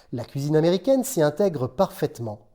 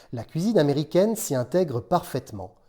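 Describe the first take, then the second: No difference in how they are said.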